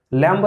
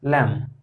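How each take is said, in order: First: लैंप said as lamb-uh, the B pronounced at the end; wrong way with B sounded. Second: लैंप said as lem, ending on M with no B sound; correct silent B. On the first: (लैंप में बी बोलकर, गलत उच्चारण) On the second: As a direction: close लैंप on the M and drop the B entirely. (लैंप सही उच्चारण, बी silent, सिर्फ लैम) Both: Shown as a demonstration. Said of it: "लैंप नहीं".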